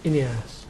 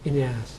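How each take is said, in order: The two takes are said the same way.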